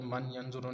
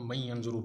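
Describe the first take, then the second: First: The n is clearly sounded before the y. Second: The n merges into the following y. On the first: The speaker calls it wrong. "ये मन यंजुरू नहीं" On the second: The speaker calls it right. "इसको मई यंजुरू पढ़ना है"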